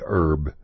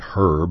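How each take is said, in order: First: The h is dropped, Texan style. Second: The h is pronounced, British style.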